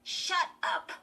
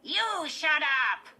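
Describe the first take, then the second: First: High, loud, irritated command; snappish. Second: Tight, high-pitched, slow dummy retort; Slappy. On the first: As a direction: snap at the dummy. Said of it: "Chris snapped to the dummy". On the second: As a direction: squeak it back loudly like a puppet. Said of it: "replied in Lindy's tight, high-pitched voice". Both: A narrator's reading.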